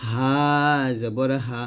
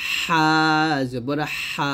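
First: "হা" thin, from the start of the throat; an easy unsqueezed "হা"; light H. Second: "হা" narrow, squeezed in mid-throat; pressed H. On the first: Teacher models the thin letter, light "হা". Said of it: "গলার শুরু থেকে বলবো পাতলা করে". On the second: Teacher models the second letter, pressed "হা". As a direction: push "হা" through a tight throat. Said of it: "চাপ দিয়ে চিকন করে". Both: Shown as a demonstration.

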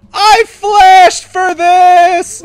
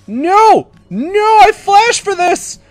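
First: Very slow, high, full-force wail; anguished drawn-out scream. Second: High, loud wail of frustration; anguished protest. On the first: Gamer losing the kill he flashed for, stretched scream. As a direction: stretch every word into a desperate scream. Repeats protest, far more drawn out. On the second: Gamer losing the kill he flashed for, loud wail. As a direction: cry out as the prize slips away. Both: Real, not acted.

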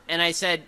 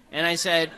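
The two takes are said the same way.

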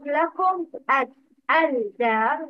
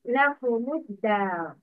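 First: لكم الدار split as lakum, al-dar with the l sounded; wrong separated pronunciation. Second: لكم الدار joined quickly as lakumud-dar; correct linked pronunciation. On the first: Teacher shows students what to avoid, لكم الدار split as lakum, al-dar. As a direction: sound the lam in الدار after a closed لكم. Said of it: "Lam shamsiya isn't pronounced". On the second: Teacher models the right reading, لكم الدار linked as lakumud-dar. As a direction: run لكم into a doubled d in الدار, no l. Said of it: "Dhamma is added instead of sukun". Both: Shown as a demonstration.

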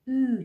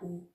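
First: او said as a long rounded "ü"; German ü sound. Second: او said as a back "oo"; plain u contrast. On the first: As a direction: say او as ü, "ee" through rounded lips. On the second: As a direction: say او as a simple u, without umlaut. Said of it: "نه او". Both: Shown as a demonstration.

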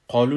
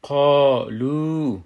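First: قالو said quickly, neither vowel held; short vowels. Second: قالو slowly and louder, both vowels held long; madd pronunciation. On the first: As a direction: say قالو with no stretching. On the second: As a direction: draw out qā and lū in قالو. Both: Shown as a demonstration. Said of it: "قالو نمیگیمش".

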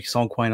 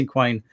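First: "sanquain" with a French-like san first syllable; alternative pronunciation. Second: "synquain" with a sin-like first syllable; first pronunciation. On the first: Poet unsure of the form's name, alternative pronunciation, "sanquain" opening with san. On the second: Poet recalling the form's name, first pronunciation, "synquain" opening like sin. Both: Shown as a demonstration. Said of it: "I don't know how to pronounce it".

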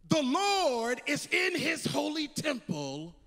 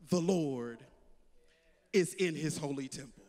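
First: Proclaiming. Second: Deep, low, solemn voice of God; voice of the Lord. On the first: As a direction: ring it out to the whole church. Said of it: "preacher proclaims the verse". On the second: The Lord speaking to his people, deep and solemn. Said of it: "the word of the Lord comes to us and says". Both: Acted.

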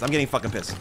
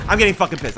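First: Said in the usual way. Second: Loud angry getting fucking pissed. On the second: Real, not acted. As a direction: stress getting, shouting it.

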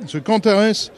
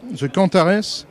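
The two takes are said the same way.

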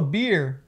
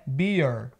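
First: "beer" said the Brazilian learner's way, as one quick syllable; pronúncia errada. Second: "beer" as BEE-ur, with curled final R; pronúncia americana. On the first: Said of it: "você pronunciou a palavra errado". ("beer" errado, à brasileira) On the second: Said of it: "O jeito certo de pronunciar". ("beer" como bi-ur, R enrolado) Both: Shown as a demonstration.

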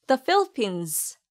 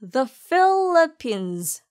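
First: The Philippines with The light and short; natural pace. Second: The Philippines stretched very slowly, weight on Philippines; slow, stressed Philippines. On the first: Teacher gives the natural-speed version again. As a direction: clip The, flow into Philippines. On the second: Teacher repeats the slow model for learners. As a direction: draw out each syllable of Philippines. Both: Shown as a demonstration. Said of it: "the는 가볍고 짧게 발음하세요".

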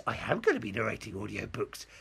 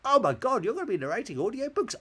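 First: Hammed-up confirming answer in own pitch; mock-proud staged reply; amateur dramatics. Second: High, loud mock-amazed questioner; hammed-up squeal of disbelief; amateur dramatics. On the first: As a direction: answer grandly, like a bad actor. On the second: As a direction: gush in pretend astonishment. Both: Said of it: "it's a bit amateur dramatics".

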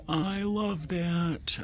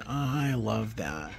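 First: Delighted coo. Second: Said in the usual way. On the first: Real, not acted. Cooing over teak bowl.

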